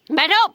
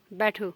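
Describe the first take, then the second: First: Higher, louder, rising बैठो snapped out; loud final command. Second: Said in the usual way. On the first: Real, not acted. Ending the child's sit-up punishment with a loud sharp command. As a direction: punch the last बैठो to end it.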